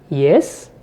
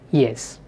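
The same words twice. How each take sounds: First: The pitch rises at the end. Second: The pitch falls at the end. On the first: It asks a question. "it is spoken with a rising tone. So that's a question" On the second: The exchange is complete. "when I say yes with a falling tone, it indicates completion"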